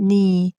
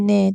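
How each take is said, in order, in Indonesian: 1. Vokalnya bunyi 'ee' yang jelas dan tinggi. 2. Vokalnya bunyi 'eh' yang lebih rendah. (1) "kita kena baca ni" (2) "Jangan sengit lah jadi ne, tak mau"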